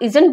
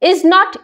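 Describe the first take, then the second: First: The words are contracted into one syllable group. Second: Both words are said in full. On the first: "उसकी sound जो है वो cut off हो जाती है" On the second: "नॉट को नॉट ही"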